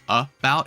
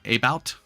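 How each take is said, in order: First: The first vowel is a weak, reduced uh sound. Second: The first vowel is a full, clear vowel sound. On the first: The speaker calls it right. "Because the A is a swa" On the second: The speaker calls it wrong. "and not about"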